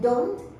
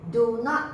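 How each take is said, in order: First: The words are joined into one contracted word. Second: Two separate words are said in full.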